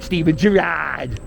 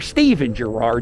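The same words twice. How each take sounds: First: The name is said in a Fishtown accent. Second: The name is said in a standard accent. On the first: The speaker calls it wrong. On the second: The speaker calls it right. "anybody without a Fishtown dialect calls it Girard"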